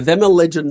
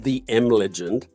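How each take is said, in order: First: It is read as 'them a legend'. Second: It is read as 'the M legend'. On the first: The speaker calls it right. "someone said them a legend" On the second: The speaker calls it wrong. "this one I said wrong in the last interview"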